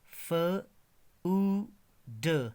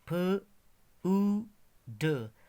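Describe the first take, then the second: Both takes have the same delivery.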